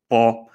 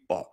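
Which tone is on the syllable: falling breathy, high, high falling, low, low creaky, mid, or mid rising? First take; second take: mid; low creaky. First: The syllable has a mid level tone. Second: The syllable is low with a creaky voice. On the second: "the low creaky"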